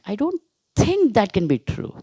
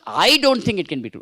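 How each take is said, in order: First: The stress falls on the word think. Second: The stress falls on the word I. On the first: The doubt is only a personal opinion. "You are giving importance to thinking" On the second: Others may think so, but not the speaker. "That means you may think, but I don't think"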